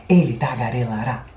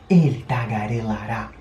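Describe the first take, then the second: No difference in how they are said.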